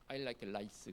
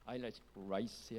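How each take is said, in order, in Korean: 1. 마지막 단어는 L 소리로 시작합니다. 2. 마지막 단어는 굴린 R 소리로 시작합니다. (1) "그러면 나는 이를 좋아하는데" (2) "해야 R을 굴려야 제대로 된 발음이"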